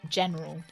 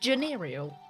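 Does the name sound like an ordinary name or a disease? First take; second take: ordinary name; disease. First: The name is said in its ordinary form. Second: The name is said sounding like a disease. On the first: The speaker calls it right. "that's obviously how it's pronounced" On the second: The speaker calls it wrong. "like some kind of some kind of awful S T I"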